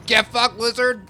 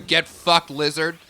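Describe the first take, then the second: First: Higher, louder repeat of "Get fucked, lizard"; louder taunt. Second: Loud gamer jab at the lizard; yelling at enemy. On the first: While fighting a lizard in the game, higher, louder taunt. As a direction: go up and hit it harder the second time. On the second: While fighting a lizard in the game, loud taunt. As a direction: bark it at the screen. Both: Real, not acted.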